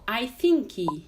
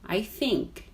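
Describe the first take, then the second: First: An extra vowel sound follows the final k. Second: The word ends cleanly on the k sound. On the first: The speaker calls it wrong. "Tem muito aluno que fala" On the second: The speaker calls it right. "Termina no K, não tem um i depois"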